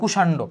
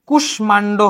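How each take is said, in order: First: No m sound is heard after the sh. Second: An m sound is heard after the sh. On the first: The speaker calls it right. "কিন্তু এটা উচ্চারণ হবে কুষাণ্ড" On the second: The speaker calls it wrong. "এটা কুষ্মাণ্ড হওয়ার কথা"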